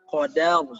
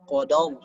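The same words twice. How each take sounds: First: The d sound is light, only the r is heavy. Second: The d sound is heavy along with the r. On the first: The speaker calls it right. "Qadar itu yang benar" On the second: The speaker calls it wrong. "dal-nya jadi ikut tebal. Ini kesalahan"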